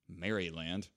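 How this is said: It is said in a British accent.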